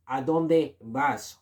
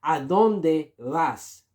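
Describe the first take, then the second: First: ¿A dónde vas? slowly repeated; slow model phrase. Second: ¿A dónde vas? said very slowly and clearly; slow model phrase. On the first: Teacher repeats ¿A dónde vas? slowly for learners. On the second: Teacher slowly models ¿A dónde vas? for learners. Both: Shown as a demonstration. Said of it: "You have to say".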